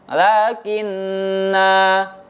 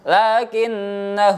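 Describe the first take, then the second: First: The final vowel is held long. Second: The final vowel is cut short. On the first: "Lakinna jika dibaca waqaf, nanya tetap dibaca panjang" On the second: "Dan jika dibaca wasol, nanya dibaca pendek"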